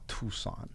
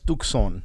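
First: The middle C is silent, no K sound. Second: The middle C is pronounced as a K sound. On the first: The speaker calls it wrong. "It's not Tucson" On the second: The speaker calls it right. "it's Tucson is how you pronounce it"

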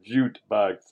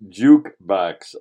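First: The first syllable ends with a t sound. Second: The first syllable ends with a k sound. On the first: The speaker calls it wrong. "It's not jute box" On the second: The speaker calls it right. "It's jukebox"

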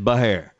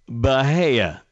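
First: The name ends with an r sound. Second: The name ends in a plain vowel.

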